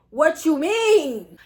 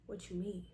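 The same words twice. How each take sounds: First: Loud, slow, drawn-out disbelief; outraged question. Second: Low, very soft disbelief; stunned quiet question. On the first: Student challenging the proctor's refusal, loud slow outrage. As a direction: stretch it out and raise the volume. Same reply repeated in outrage. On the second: Student stunned by the proctor's refusal, low and hushed. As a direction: barely voice it, taken aback. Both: Retold or imitated.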